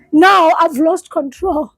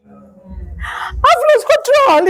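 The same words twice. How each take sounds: First: Said in the usual way. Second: Sobbed much higher and very slow; the words crack as she breaks down; breaking into tears, high and slow. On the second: Real, not acted. Breaking down while telling story.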